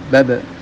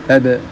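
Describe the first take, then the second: Both takes have the same delivery.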